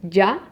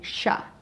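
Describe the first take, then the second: First: The y sound is strong and firm. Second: The y sound is said like sh. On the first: This is how it sounds in Mexico. "we in Mexico, we do it a little bit stronger" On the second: This is how it sounds in Argentina. "in Argentina, they do more like sha"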